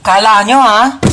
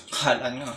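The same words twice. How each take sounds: First: Loud taunting gloat. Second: Low, much softer smug gloat; quiet gloat. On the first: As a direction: taunt the absent siblings. Gloating over stolen chocolate. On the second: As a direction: gloat under your breath. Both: Acted.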